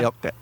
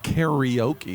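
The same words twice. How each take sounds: First: The r is a quick flick of the tongue. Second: The r is a plain English r sound. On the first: "it's just kind of a flicking the tongue" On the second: "which is what we say"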